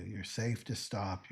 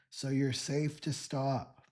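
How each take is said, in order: First: Said in the usual way. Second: "safe to stop" said higher, louder and slower, leaning on "to"; emphatic reassurance. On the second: Shown as a demonstration. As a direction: press the words "safe to stop" firmly and slowly. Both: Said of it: "This is what I want to tell you".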